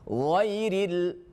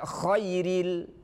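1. Kata itu diawali dengan bunyi gh bersuara. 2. Kata itu diawali dengan bunyi kh tak bersuara.

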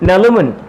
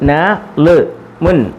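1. അക്ഷരങ്ങൾ ഒന്നിച്ചു ചേർന്ന് ഒരൊറ്റ സുഗമമായ വാക്കായി പറയുന്നു. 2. അക്ഷരങ്ങൾ ഇടവേളകളോടെ വേർതിരിച്ചാണ് പറയുന്നത്. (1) "പിന്നെ അങ്ങനെ വായിക്കും" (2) "ന ലു മുൻ എന്ന് വായിക്കരുത്"

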